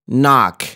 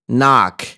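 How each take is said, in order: The two takes are said the same way.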